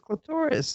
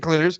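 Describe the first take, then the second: First: The stress is on the second syllable. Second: The stress is on the first syllable. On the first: "it's much funner to say clitoris because I can say the glorious clitoris" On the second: "I can say clitoris"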